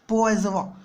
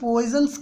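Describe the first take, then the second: First: The name is said with a French pronunciation. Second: The name is said with an anglicized pronunciation. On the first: This is the original pronunciation of the name. "इसका जो real pronunciation होता है वो होता है पोइजवा" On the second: This is the usual local way of saying it. "हम लोग तो इसे पॉइजन्स कहते हैं"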